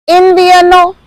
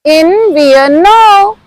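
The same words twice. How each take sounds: First: Said in the usual way. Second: "Invierno" drawn out slowly; slow model. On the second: Shown as a demonstration. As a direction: stretch "Invierno" syllable by syllable for learners. Teacher models word slowly for repetition.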